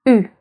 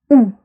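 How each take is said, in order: First: "U" as a tight front rounded vowel; French u sound. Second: "U" as a back "oo" vowel; French ou sound. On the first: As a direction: say "U" as ee through rounded lips. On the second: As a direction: say "U" like the oo in food, short. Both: Shown as a demonstration. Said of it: "the different sounds".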